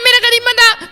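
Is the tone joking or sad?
joking. It is said in a joking, playful tone.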